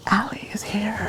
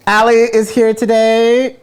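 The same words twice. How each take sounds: First: Breathy hushed whisper. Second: Loud, high hype announcement; announcer shout. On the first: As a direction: whisper the reveal like a secret. Same announcement, now whispered. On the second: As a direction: call it out like a game-show host. Host's big guest announcement. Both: Acted.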